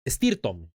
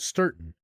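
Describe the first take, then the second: First: The word starts with an added e sound. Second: The word starts directly with the s sound. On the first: "my mom would pronounce it Estirton" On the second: "a street a long time ago called Stirton"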